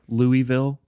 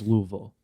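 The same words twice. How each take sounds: First: It is said in a general American accent. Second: It is said in a Southern local accent.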